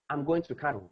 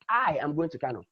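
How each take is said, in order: First: No word is given special stress. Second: The stress falls on the word I. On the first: A plain statement of the trip. "There is no emphasis in anyone" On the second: The speaker, not anyone else, is going. "means that it is I"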